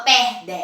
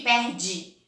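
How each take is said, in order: First: Perde with a clear final e sound, pair-deh; pronúncia errada de perde, com e final; spelled-out final e. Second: Perde with the final e said as i, pair-djee. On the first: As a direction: say perde ending on an open e. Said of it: "Você não fala". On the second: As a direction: end perde on an i sound with dj. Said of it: "Você fala com som de I". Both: Shown as a demonstration.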